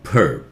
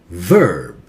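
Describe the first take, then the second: First: The first sound is made with both lips together. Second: The first sound uses lower lip on upper teeth. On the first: The speaker calls it wrong. "Do not touch your lips together. Not verb" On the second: The speaker calls it right. "your lower lip has to touch the upper teeth"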